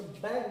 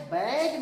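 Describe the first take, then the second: First: बैग with a short vowel, weight on ब; बैग, B hit, A kept brief; force on the B. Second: बैग with a long, loud vowel; बैग, middle vowel drawn out; stress on the A. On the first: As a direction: say बैग quickly from a firm B. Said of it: "तो बैग कहना है". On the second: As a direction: say बैग leaning on the A. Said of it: "बैग नहीं कहना". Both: Shown as a demonstration.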